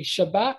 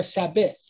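First: "Shabbat" with sh first and t last; sh pronunciation. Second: "Sabbath" with s first and th last; s pronunciation. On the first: Teacher offering the alternative reading, sh pronunciation. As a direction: say "Shabbat" opening on sh, closing on t. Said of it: "with a S H sound". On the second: Teacher offering the alternative reading, s pronunciation. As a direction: say "Sabbath" opening on s, closing on th. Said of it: "pronounce it with a s sound". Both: Shown as a demonstration.

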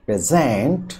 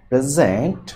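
First: present as a verb, stressed on its second syllable. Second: present as a noun, stressed on its first syllable. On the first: Teacher contrasting verb with noun, second-syllable stress on present. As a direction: put the weight on the last syllable of present. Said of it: "দ্বিতীয় সিলেবলের উপরে". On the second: Teacher contrasting noun with verb, first-syllable stress on present. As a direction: put the weight on the opening syllable of present. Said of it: "তাই stress হবে প্রথম সিলেবলের উপরে". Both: Shown as a demonstration.

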